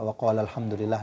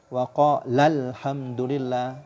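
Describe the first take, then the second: First: It is read flat, without any emphasis. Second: It is read with clear emphasis on the verb. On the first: Only one person is meant. The speaker calls it wrong. "jangan dibaca wa qalal hamdulillah datar saja" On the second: Two people are meant. The speaker calls it right. "Jadi harus ditekan"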